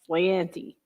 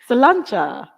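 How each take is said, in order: First: It ends in a 'tee' sound, American accent. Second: It ends in a 'cha' sound. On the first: The speaker calls it wrong. "I always thought it was like slanty. I say in my best Philadelphia accent" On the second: The speaker calls it right. "That's how you say it"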